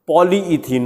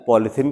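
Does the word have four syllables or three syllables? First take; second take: four; three. First: It is said with four syllables, keeping the middle vowel. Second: It is said with three syllables, dropping the middle vowel. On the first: This is the chemically correct name. "अगर आप सही नाम pronounce करेंगे" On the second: This is what people commonly call it. "पॉलीथीन कहते हैं"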